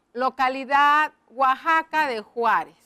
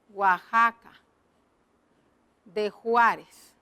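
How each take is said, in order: First: Said in the usual way. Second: Slow dictation. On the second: Shown as a demonstration. Writing the place name in the box.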